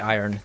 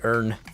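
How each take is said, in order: First: It is said with two syllables, like 'iron'. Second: It is said with one syllable, like 'earn'. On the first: This is the local way to say it. "They don't say iron" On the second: This is how Americans say it. "they say Earn"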